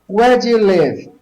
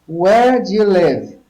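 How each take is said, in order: The two takes are said the same way.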